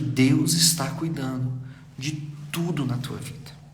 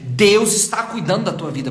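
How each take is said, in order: First: It is said softly and calmly. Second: It is said loudly, almost shouting.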